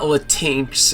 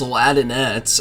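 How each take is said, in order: First: The word ends with an 'x' sound. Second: The word ends with an 'ettes' sound. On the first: The speaker calls it wrong. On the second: The speaker calls it right. "you need to say it right"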